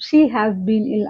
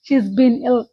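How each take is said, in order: First: The word 'has' is said in full. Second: The word 'has' is contracted to 's. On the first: "she హ్యాస్ been ఇల్ అని రాసినప్పుడు" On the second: "షీస్ been ఇల్ అని కూడా అనొచ్చు"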